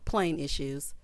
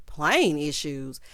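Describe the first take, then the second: First: Said in the usual way. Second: Slow, stressed "Plane issues?" in disbelief; disbelieving echo. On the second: Real, not acted. Host questioning the man's excuse, slow and incredulous. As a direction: repeat it like it makes no sense.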